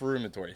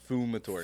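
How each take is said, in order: First: The first syllable has an r sound after f. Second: The first syllable has no r sound after f. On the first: The speaker calls it wrong. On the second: The speaker calls it right.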